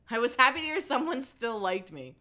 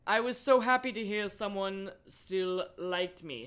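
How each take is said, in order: First: Higher, brighter retake; happier reread. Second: Said in the usual way. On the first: A narrator's reading. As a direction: lift it with mild happiness. Rereads the line more emotively.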